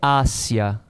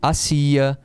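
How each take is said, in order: First: The stress falls on the first syllable. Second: The stress falls on the second syllable. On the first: It is the preposition meaning toward or around. "a preposição é ácia" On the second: It is the verb meaning someone was doing or making. "É acentuado, a pronúncia é diferente. Aqui eu pronuncio hacía"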